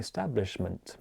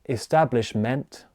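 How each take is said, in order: First: The last syllable has a reduced schwa vowel. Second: The last syllable has a full 'eh' vowel. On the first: The speaker calls it right. "I'm saying establishment" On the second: The speaker calls it wrong. "I'm not saying uh"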